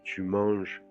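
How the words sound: It is said with the tune of a statement. You are eating. "c'est une affirmation"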